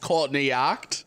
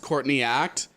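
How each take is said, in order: First: The name is said in an Australian accent. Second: The name is said in a neutral accent.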